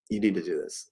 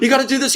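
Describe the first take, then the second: First: It is said calmly and peacefully. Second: It is said frantically, with a gasp.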